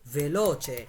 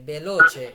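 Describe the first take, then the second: First: The word begins with a v sound. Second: The word begins with a b sound. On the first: The speaker calls it right. "No এটা হচ্ছে ভেলোচে" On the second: The speaker calls it wrong. "অনেকে বলে বেলোচে"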